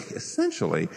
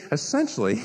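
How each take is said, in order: First: Softer and lower, laughing through it; preacher laughs at himself mid-sentence. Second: Said in the usual way. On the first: Real, not acted. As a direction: let a laugh break into the word. Laughs while repeating word.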